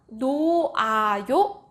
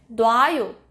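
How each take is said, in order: First: It is said as three separate syllables. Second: It is contracted into two syllables. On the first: "아어여요랑 같이 쓰면 노아요 이렇게 쓰는데" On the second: "말할 때는요, 이 흐 사운드가 아주 약한 소리이기 때문에 놔요 이렇게 쓰는 경우도 많습니다"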